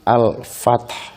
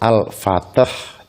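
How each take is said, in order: First: The word ends with a faint, soft h. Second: The word ends with an added 'ah' sound. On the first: The speaker calls it right. "Haknya lirih" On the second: The speaker calls it wrong. "Tidak boleh al-fatah"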